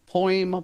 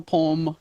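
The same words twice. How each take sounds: First: "Poem" with an oy glide, POY-m; two-syllable poem. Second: "poem" squashed into "pome"; one-syllable poem. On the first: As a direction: say "Poem" opening into a second vowel. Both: Shown as a demonstration. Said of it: "I have a problem with poem".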